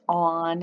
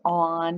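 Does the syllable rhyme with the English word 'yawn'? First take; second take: yes; yes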